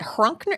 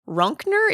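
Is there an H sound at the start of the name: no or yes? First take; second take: yes; no. First: The name starts with an H sound. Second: The name starts without an H sound. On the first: "Is it Hrunkner?" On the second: "Is the H silent?"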